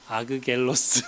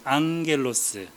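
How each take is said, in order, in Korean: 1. 겹 g는 두 개의 딱딱한 g 소리로 발음해요. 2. 앞의 g는 ng 비음으로 바뀌어요. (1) "발음이 어때요? 어렵죠" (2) "이 응 발음이 돼요"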